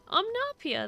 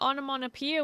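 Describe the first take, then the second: First: The word is said with syllables missing. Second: The word is said with all its syllables. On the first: The speaker calls it wrong. "I didn't associate omnopia with onomatopoeia" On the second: The speaker calls it right. "That's how you pronounce that?"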